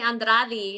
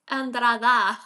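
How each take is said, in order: First: The name ends with an 'e' sound. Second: The name ends with an 'a' sound. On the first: The speaker calls it wrong. "They they put an e at the end" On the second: The speaker calls it right. "it's Andrada"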